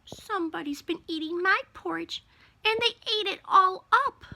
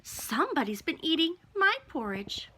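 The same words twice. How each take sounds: First: Put-on high little baby bear voice; wee small Baby Bear voice. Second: Higher, lilting mama bear; medium-sized Mama Bear voice. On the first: Baby Bear finding his bowl empty, in a wee small voice. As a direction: pipe up high like a wee bear cub, rising to the end. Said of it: "in his wee small baby bear voice". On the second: Mama Bear looking at her bowl, in a medium-sized voice. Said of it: "In her medium-sized voice". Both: A narrator's reading.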